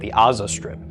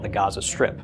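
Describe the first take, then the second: First: Gaza begins with a vowel, with no G. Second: Gaza begins with a hard G sound. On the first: "if they were to pronounce it the way they usually pronounce an ayin now" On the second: "they still call it the Gaza Strip"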